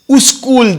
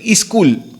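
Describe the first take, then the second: First: An extra u vowel comes before the s. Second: An extra i vowel comes before the s. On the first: The speaker comes from an Urdu background. "people who are the Urdu background, you'll say uskul" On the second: The speaker comes from a Hindi or North Karnataka background. "in the Hindi side and all North Karnataka, say iskul"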